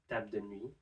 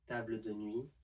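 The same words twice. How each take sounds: First: The final l of table is left out. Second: The final l of table is pronounced.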